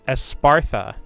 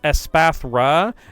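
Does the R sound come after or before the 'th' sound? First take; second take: before; after. First: The R sound comes right before the 'th'. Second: The R sound comes right after the 'th'. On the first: The speaker calls it wrong. "I'm pl- saying Espartha. So I just moved the R halfway across the damn word" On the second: The speaker calls it right. "there is an R because like it's Espathra"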